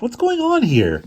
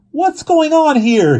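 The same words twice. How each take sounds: First: High, slow, loud baffled question; bewildered. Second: Very high, loud, slow demand. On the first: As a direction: demand it, totally confused. Angeline confused at the scene. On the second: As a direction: yell it, getting angry. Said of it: "she demanded". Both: Acted.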